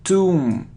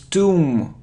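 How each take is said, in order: The two takes are said the same way.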